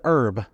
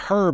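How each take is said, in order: First: The word begins with a silent h. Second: The word begins with an audible h sound. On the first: The speaker calls it right. "instead of herb" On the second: The speaker calls it wrong. "while she berated me for pronouncing it herb"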